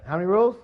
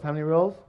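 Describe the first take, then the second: First: Higher and louder call for the answer; louder repeat. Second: Said in the usual way. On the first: Shown as a demonstration. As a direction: prompt the crowd again, louder.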